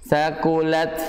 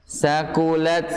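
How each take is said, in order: Both takes have the same delivery.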